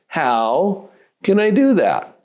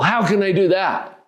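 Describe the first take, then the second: First: It is said like a real question. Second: It is said like a flat statement.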